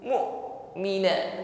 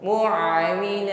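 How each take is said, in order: First: The glottal stop is fully closed off. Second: Sound keeps running through the glottal stop. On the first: The speaker calls it right. "tidak boleh ada suara yang masih jalan" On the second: The speaker calls it wrong. "nah, tidak boleh"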